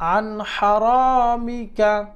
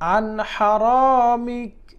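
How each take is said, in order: First: The phrase ends with a final vowel. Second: The phrase ends on a bare consonant.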